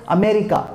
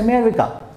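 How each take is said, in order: First: The word begins with a full vowel sound. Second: The word begins without the first vowel sound. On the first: The speaker calls it wrong. "People say America" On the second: The speaker calls it right. "Just remove A. Just say America"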